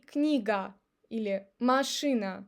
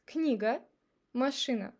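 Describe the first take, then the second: First: Книга, машина with every A a full open ah; unreduced A. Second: Книга, машина with final A reduced to uh; reduced unstressed A. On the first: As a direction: say книга или машина letter by letter, clear ah. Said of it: "I don't say". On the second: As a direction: end Книга and машина on a weak uh. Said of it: "we pronounce it like A". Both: Shown as a demonstration.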